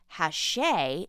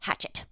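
First: The name is said with French sounds. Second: The name is said with American English sounds. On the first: "It's the publisher that is pronounced Hachette" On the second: "because it's a French word and we're in America, it should be pronounced Hachette"

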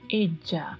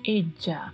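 First: The double L sounds like a dj sound. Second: The same.

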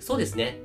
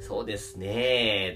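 First: The phrase is said short and crisp. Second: The phrase is said with a drawn-out ending. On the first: It sounds polite and respectful. The speaker calls it right. "ハキハキと喋る" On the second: It does not sound very polite. The speaker calls it wrong. "もしそうですねって伸ばしたら"

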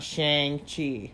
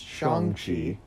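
First: The name is said with an American pronunciation. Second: The name is said with a non-American pronunciation. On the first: The speaker calls it wrong. "Just sounds American way to say it" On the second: The speaker calls it right. "it's supposed to be pronounced Shang-Chi"

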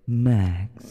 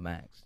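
First: It is said in a smooth, suave voice. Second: It is said in a plain, ordinary voice.

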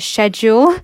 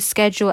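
First: It is said in a British way. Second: It is said in a non-British way.

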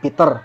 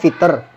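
First: The name begins with a P sound. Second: The name begins with an F sound. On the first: "contohnya kayak nama gue nih Peter" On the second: "karena nggak bisa ngomong P, jadinya Fitter"

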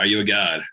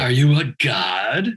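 First: It is said in the speaker's normal voice. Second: It is said in a put-on character voice. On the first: "you have to say it right" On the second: "Our listeners demand you say this right"

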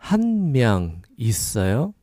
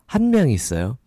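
First: It is said slowly. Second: It is said faster.

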